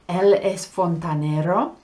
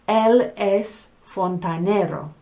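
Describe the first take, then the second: First: The voice rises at the end like a question. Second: The voice falls at the end like a statement. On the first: It asks whether he is a plumber. "to make it into a question, it's the same words" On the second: It states that he is a plumber. "He is a plumber"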